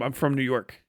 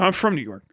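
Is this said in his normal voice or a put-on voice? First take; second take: normal voice; put-on voice. First: It is said in his ordinary speaking voice. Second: It is said in an imitated, put-on voice.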